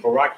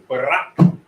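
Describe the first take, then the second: First: The R is said plainly, not rolled. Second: The R is strongly rolled.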